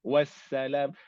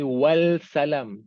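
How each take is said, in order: First: The S follows directly with no L sound. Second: An L sound is pronounced before the S. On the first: The speaker calls it right. "dia tak pergi wal salam" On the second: The speaker calls it wrong. "dia tak pergi wal salam"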